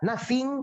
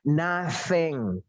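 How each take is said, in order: First: The second vowel is a tense 'ee'. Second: The second vowel is an 'eh'-like sound. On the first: The speaker calls it wrong. "coba pakai suara i" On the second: The speaker calls it right. "Ini bacaannya adalah nothing"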